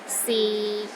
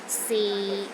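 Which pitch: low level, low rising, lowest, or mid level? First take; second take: low level; low level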